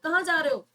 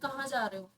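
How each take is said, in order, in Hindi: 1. यह गुस्से भरे लहजे में चिल्लाकर कहा गया है। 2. यह सामान्य और सपाट तरीके से कहा गया है। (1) "अगर मैं चिल्ला के बोलूँगी ... तो पता चलेगा कि मैं गुस्से में बोल रही हूँ" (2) "जस्ट अ नॉर्मल वर्ड है"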